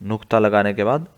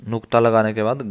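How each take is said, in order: Both takes have the same delivery.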